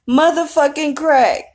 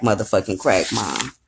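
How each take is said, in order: First: High, strained imitation of a sobbing husband; mimicking the husband's teary wail; imitating Clint's crying. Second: Lower, softer retold version of the line; light mock of the husband's complaint; low muttered imitation of Clint. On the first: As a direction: squeeze it out high and slow like a broken man. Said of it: "That's how he said it". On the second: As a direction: mutter it down low, half-hearted. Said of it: "He goes in the room and was like".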